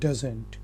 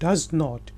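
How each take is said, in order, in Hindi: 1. इसे जल्दी से एक संक्षिप्त शब्द के रूप में कहा जाता है। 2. इसे दो अलग-अलग पूरे शब्दों के रूप में कहा जाता है। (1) "शॉर्ट करके हम जल्दी में कहते हैं" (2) "नेगेटिव में आप कहते हैं"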